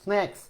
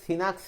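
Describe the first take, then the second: First: The first two consonants are said together. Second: A vowel separates the first two consonants. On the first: "মানে স্ন্যাক্স" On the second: "যুক্ত বর্ণটা একসাথে উচ্চারণ করতে পারতেছে না, সে বলতেছে সিনাক্স"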